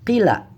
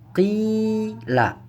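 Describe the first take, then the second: First: The first vowel is cut short. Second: The first vowel is held long. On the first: The speaker calls it wrong. "Bukan dibaca" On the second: The speaker calls it right. "Maka dibaca panjang"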